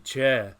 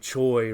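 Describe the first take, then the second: First: The name is said with a Korean pronunciation. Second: The name is said with an English pronunciation. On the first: "the Korean, as we know, would be Che" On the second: "we usually say Choi"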